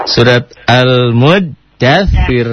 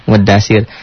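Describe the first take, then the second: First: Al-Mudaththir with a long held doubled dh. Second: Mudaththir with a single short dh, no doubling; lazy Mudaththir, the dh not doubled. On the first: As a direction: stretch the double consonant in Al-Mudaththir slowly. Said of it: "double-double gitu ya". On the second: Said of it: "orang kita tuh nggak mau susah". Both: Shown as a demonstration.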